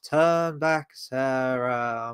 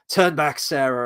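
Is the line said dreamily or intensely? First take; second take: dreamily; intensely. First: It is said in a dreamy, drifting-off way. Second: It is said in an intense, forceful way.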